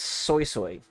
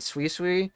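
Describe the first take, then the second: First: The name is said like 'soy soy'. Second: The name is said like 'soo-ee soo-ee'. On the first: The speaker calls it right. "but I heard it's Soy Soy" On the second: The speaker calls it wrong. "I was pronouncing it Sui Sui"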